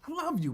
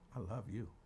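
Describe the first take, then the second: First: It is said in a casual, hearty tone. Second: It is said in a soft, tender tone. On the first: It is friendly, brotherly affection. The speaker calls it right. "Nothing but love" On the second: It sounds like romantic affection. The speaker calls it wrong.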